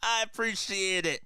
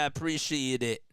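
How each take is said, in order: First: It is said with more energy and enthusiasm. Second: It is said flatly, with little energy. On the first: The speaker calls it right. "That's better. I had to show up a little bit more energy" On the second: The speaker calls it wrong. "Sorry I didn't sound enthusiastic"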